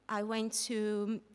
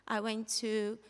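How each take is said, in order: Both takes have the same delivery.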